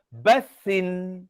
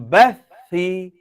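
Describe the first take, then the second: First: The word ends with an n sound. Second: The word ends with a vowel. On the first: The speaker calls it wrong. "Dia tak baca bathin" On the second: The speaker calls it right. "Tapi dia baca dengan bathi"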